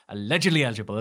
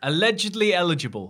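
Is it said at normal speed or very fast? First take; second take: very fast; normal speed. First: It is said very fast. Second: It is said at a normal speed.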